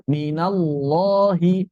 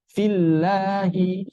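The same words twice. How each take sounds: First: 'minallahi' slow with a heavy 'loh'; thick lam. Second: 'Fillahi' slow with a light front 'lah'; thin lam. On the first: Teacher contrasts for students, thick lam. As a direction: raise the tongue back on 'minallahi'. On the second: Teacher contrasts for students, thin lam. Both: Shown as a demonstration. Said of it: "bedanya dia dibaca tebal".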